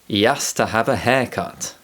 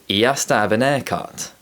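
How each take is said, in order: First: The h is dropped from the small function words. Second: The h is dropped even from haircut. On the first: "When I speak naturally, it sounds like" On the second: "in London, the previous example might sound like"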